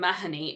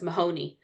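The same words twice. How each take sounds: First: The name is said the Irish way. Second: The name is said the American way. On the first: "I mentioned the name Mahoney" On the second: "the way it's usually pronounced in America"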